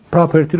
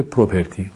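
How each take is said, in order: First: پراپرتی with an open "pra" start; تلفظ درست property. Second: پروپرتی with a rounded "pro" start; تلفظ غلط property. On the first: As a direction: say پراپرتی with an a in the first syllable. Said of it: "طالبی پراپرتی رو گفته پروپرتی". (تلفظ property به شکل «پراپرتی») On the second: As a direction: say پروپرتی with an o in the first syllable. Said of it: "اشتباه گفته". (تلفظ property به شکل «پروپرتی») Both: Shown as a demonstration.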